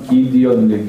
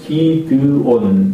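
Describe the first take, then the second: First: The name is said with English pronunciation. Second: The name is said with Korean pronunciation. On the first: "영어로 하면 기디온" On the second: "우리가 보통 한국말은 기드온 이렇게 이야기를 하는"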